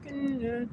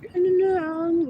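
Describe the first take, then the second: First: Soft goodnight. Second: Goodnight sung up high. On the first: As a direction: let it fade out like a whisper. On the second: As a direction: call it out high and drawn out. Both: Pretend.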